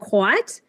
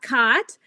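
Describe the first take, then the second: First: Its vowel differs from the vowel in cot. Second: Its vowel is the same as in cot. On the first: "which a lot of people say cot and quat" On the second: "the way you say them, cot, cot"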